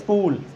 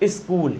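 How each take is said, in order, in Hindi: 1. s से पहले 'i' का केवल हल्का सा आभास होता है। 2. s से पहले एक पूरा 'i' स्वर आता है। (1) "इस तरीके से बोलना है" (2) "ई बोलना भी नहीं आपको कि आप बोलने लगो"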